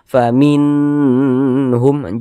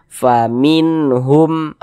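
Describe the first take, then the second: First: The n sound is lengthened and drawn out. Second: The n sound is short and not drawn out. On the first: The speaker calls it wrong. "Jangan dibaca faminhum, jangan dipanjangkan seperti itu" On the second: The speaker calls it right. "baca pendek saja. Faminhum, faminhum, pendek"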